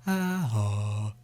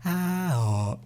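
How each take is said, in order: First: Darker, softer vowels from a hollowed throat. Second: Higher, lighter vowel demo; before dropping the throat. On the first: Teacher demoing ah, oh with hollowed throat, softer. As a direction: drop the throat and let ah, oh sound hollow. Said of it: "with your hollowed throat". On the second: Teacher demoing the vowels before dropping the throat, higher. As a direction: sing out ah, oh with an open, high throat. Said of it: "And now we go". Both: Shown as a demonstration.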